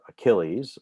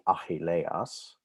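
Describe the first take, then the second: First: The name is said in its usual English form. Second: The name is said in its Greek form. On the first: "but we call it Achilles" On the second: "the real pronunciation would be Achilleas"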